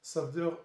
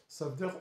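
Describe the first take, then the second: No difference in how they are said.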